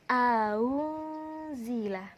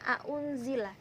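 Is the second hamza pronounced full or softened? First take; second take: softened; full. First: The second hamza is softened toward a waw. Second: The second hamza is pronounced fully and clearly. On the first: "disamarkan dengan huruf waw" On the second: "aunzila itu bacaan tahqiq"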